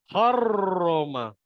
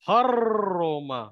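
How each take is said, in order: The two takes are said the same way.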